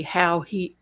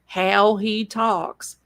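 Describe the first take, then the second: First: Said in the usual way. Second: Slow, stretched country accent; Notso's accent. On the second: Shown as a demonstration. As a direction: draw out HOW in his country accent. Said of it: "in his accent".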